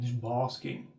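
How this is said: Basking is said with a British accent.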